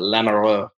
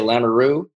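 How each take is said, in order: First: It is said the Austrian way, with a throaty sound. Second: It is said the plain North Dakota way.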